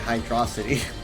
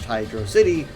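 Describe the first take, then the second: First: The ending rhymes with the end of velocity. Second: The ending sounds like the word city. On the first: The speaker calls it wrong. "It sounds more fun to say hydrosity, like velocity" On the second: The speaker calls it right. "I think it should be pronounced Hydrocity"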